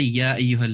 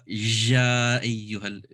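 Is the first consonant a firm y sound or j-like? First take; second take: firm y; j-like. First: It begins with a firm y sound. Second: It begins with a j-like sound. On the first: The speaker calls it right. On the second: The speaker calls it wrong.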